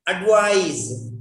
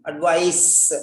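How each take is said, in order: First: "Advise" ending in a buzzed z; "Advise" said ad-vize; verb advise. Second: "advice" ending in a hissed s; "advice" said ad-vice, sharp s at the end; noun advice. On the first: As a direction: stretch the end of "Advise" on a voiced z. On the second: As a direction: finish "advice" on a voiceless s. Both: Shown as a demonstration. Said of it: "Don't pronounce the same way".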